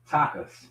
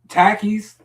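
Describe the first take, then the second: First: The final syllable has an 'ah' vowel. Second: The final syllable has an 'ee' vowel. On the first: The speaker calls it wrong. "I said it wrong" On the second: The speaker calls it right. "I said it right this time"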